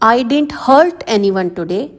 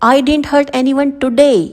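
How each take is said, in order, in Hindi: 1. शब्द hurt पर मुख्य बलाघात है। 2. शब्द today पर मुख्य बलाघात है। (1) "अब इसमें हर्ट पर प्रेशर डाला गया है।" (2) "तो यहाँ पर ये टुडे वर्ड"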